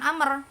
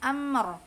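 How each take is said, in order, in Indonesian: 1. Konsonan akhir memantul dengan gema. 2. Konsonan akhir berakhir dengan bersih, tidak memantul.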